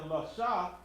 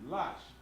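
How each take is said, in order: First: The word ends with an open 'ah' vowel. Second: The word ends on the consonant, no vowel. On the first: The letter stands alone. The speaker calls it wrong. "instead of saying lasha" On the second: The letter joins the next one. The speaker calls it right. "it'll be lash. ... You drop the ah off"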